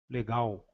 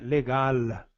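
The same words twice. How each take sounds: First: The final sound is a W-like vowel. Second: The final sound is a full L. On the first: The speaker calls it wrong. "e não ao" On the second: The speaker calls it right. "geralmente o L é, é, é velar, não é, é diferente de U"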